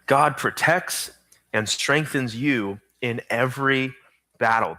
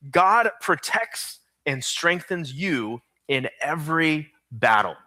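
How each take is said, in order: First: Slow again, with pauses between phrases; slow dictation repeat. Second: Slow, deliberate dictation pace. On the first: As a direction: let them catch every word. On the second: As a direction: spell it out slowly for note-takers. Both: Shown as a demonstration. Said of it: "Here's your fill-in".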